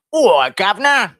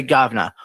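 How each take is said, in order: First: High, loud, drawn-out Cockney call; Cockney orc voice, slow and high-pitched; Cockney accent. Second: Said in the usual way. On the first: Acted. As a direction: holler it as a hammed-up Cockney. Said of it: "Say, "Governor".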